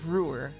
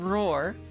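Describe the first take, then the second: First: The vowel sounds like 'oo', as in tour. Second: The vowel sounds like 'oh', as in roar. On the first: The speaker calls it right. "That O should be a U" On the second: The speaker calls it wrong. "It's not roar"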